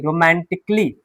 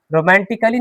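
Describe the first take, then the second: First: रोमांटिकली as ro-man-tik-lee, falling; silent A. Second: रोमांटिकली as ro-man-ti-ka-lee; wrong, A sounded. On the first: Teacher correcting the reading, रोमांटिकली without the ka. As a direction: drop the A in रोमांटिकली, k straight into lee. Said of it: "रोमांटिकली नहीं". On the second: Teacher showing the reading to avoid, रोमांटिकली with a sounded A. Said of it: "नहीं". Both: Shown as a demonstration.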